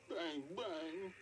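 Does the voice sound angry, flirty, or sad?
sad. It is said in a sad tone.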